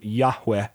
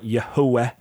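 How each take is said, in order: First: No middle vowel is heard between h and w. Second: A middle vowel is heard between h and w. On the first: This is how southern Israel may have said it. "that middle vowel may have been elided" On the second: This is how northern Israel may have said it. "vocalized with a middle vowel"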